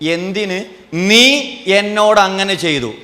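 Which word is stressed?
നീ. The stress falls on the word നീ. Who did the act is the issue. "നീ ചെയ്ത പ്രശ്നം"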